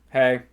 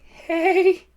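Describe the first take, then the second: First: It is said with low energy. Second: It is said with more energy, awkwardly.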